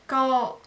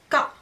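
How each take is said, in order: First: The vowel is held long. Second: The vowel is cut short. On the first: "c'est long" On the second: "c'est bref"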